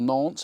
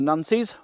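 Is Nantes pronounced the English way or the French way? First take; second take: French; English. First: The name is said with a French pronunciation. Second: The name is said with an English pronunciation. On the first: The speaker calls it right. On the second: The speaker calls it wrong.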